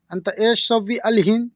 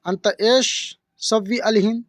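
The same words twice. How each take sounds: First: Said in the usual way. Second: अंत एश सव्वी अलहिन spelled out slowly; slow demo. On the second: Shown as a demonstration. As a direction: draw out each Arabic word for the learner. (धीमा, साफ़ उच्चारण) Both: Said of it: "इसको Arabic बोलेंगे".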